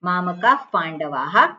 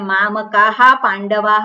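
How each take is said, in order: First: The visarga is a soft breathy f-like sound. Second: The visarga is sounded as a full ha syllable. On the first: The speaker calls it right. "આ રીતે એને બોલવાનું" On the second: The speaker calls it wrong. "એવું ના બોલાય"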